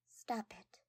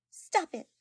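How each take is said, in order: First: "Stop it." whispered and falling. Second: "Stop it." loud and much higher. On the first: Shy girl embarrassed by her friend's praise, whispered. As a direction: breathe "Stop it." barely voiced. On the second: Flustered girl cutting off her friend's compliments, loud and high. Retake of embarrassed reaction. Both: Acted.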